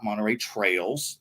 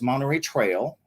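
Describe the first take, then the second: First: The last word ends with an added s sound. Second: The last word ends without an s sound. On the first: The speaker calls it wrong. "not Monterey Trails" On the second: The speaker calls it right. "it's Monterey Trail"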